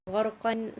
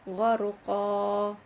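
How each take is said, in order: First: It ends with a short vowel and n. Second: It ends on a long vowel, without n. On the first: The reciter continues past this word. "when you are going to continue, then you will say Gharqan" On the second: The reciter stops on this word. "If I'm going to stop, I will recite Gharqa, two counts"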